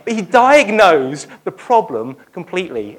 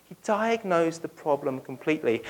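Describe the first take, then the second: First: Louder, driven home; emphatic. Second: Softer, settled echo; quiet restatement. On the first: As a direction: proclaim it firmly. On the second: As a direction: let it sink in softly. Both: Shown as a demonstration. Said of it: "repeated phrase".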